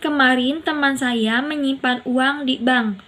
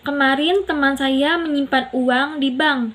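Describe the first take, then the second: First: The words di bank carry the main stress. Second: The word teman carries the main stress. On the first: It was at the bank, not a pawnshop. "Di bank bukan pegadaian" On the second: It was a friend, not a relative. "Teman bukan saudara"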